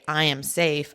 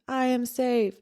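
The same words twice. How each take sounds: First: It is said firmly, with a steady, strong voice. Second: It is said weakly, with a shaky, broken voice. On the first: The person is choosing to feel confident. "I'm going to be strong and say" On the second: The person feels scared and unsure. "a very weak, a very broken"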